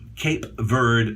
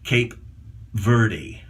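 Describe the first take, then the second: First: The final E of Verde is silent. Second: The final E of Verde is pronounced. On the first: This is the local, correct pronunciation. "Cape Verde actually would be proper" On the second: This is how many visitors say it. "some people would say Cape Verde"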